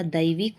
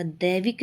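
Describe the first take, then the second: First: दैविक with an ai diphthong; correct pronunciation. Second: दैविक with a single e vowel; wrong pronunciation. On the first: Teacher correcting the word, दैविक as daivik. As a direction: say दैविक as da-ee-vik. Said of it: "होता है". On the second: Teacher showing the error, दैविक as devik. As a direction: say दैविक as de-vik. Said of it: "नहीं होता". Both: Shown as a demonstration.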